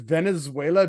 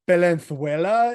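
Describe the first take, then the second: First: The z sounds like an s. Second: The z sounds like a th.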